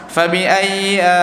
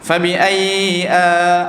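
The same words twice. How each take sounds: First: The doubled y sound is said lightly. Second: The doubled y sound is drawn out longer. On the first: "Dia macam tak berapa tak tekan sangat" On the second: "dia tak menggunakan tekanan, maka dia panjangkan sikit"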